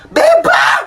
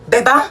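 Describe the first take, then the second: First: High loud shout of "Bebang!"; shouted call. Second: Said in the usual way. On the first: Acted. Driver calling Bebang, shouting her name loud. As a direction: yell "Bebang!" high across the road.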